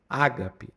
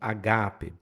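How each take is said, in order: First: The stress is on the first syllable. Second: The stress is on the second syllable. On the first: The speaker calls it wrong. "a tônica está na primeira ... mas não é essa a pronúncia correta" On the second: The speaker calls it right. "a tônica é no Gá"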